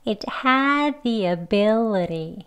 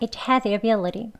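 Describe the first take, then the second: First: The phrase is said at a slower pace. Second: The phrase is said at a faster pace. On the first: "올라갔다 내려오는 리듬이 있죠?" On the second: "조금 빨리도 해볼게요"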